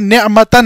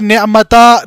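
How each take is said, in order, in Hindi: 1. शब्द n की आवाज़ से खत्म होता है। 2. शब्द लंबे आ स्वर से खत्म होता है। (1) "यहां पर नेअमतन है" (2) "हम यहां पर नेअमता नहीं पढ़ सकते"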